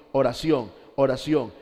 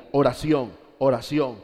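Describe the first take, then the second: No difference in how they are said.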